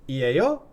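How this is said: The voice rises at the end.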